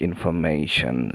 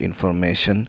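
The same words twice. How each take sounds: First: It is said with an English accent. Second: It is said with a Bengali accent. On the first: The speaker calls it right. "It has to be like information" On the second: The speaker calls it wrong. "it is not information"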